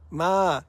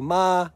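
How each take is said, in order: First: The pitch falls across the word. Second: The pitch stays level throughout the word. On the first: The word means dog. "falling tone" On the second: The word means to come. "flat tone"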